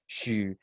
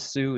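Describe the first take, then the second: First: The name begins with a sh sound. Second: The name begins with a plain s sound. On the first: This is the original Mandarin way of saying it. The speaker calls it right. "the correct way of saying my last name in Mandarin" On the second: This is the simplified American way of saying it. The speaker calls it wrong. "this dumbed down American pronunciation of my family name"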